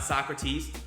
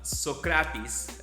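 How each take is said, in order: First: The name is pronounced the American way. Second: The name is pronounced the Greek way. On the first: The speaker calls it wrong. "it's not" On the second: The speaker calls it right. "his name is uh"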